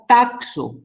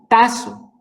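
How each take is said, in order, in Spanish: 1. La consonante del medio se pronuncia como ks. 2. La consonante del medio se pronuncia como s. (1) "estoy pronunciando mal" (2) "con doble S"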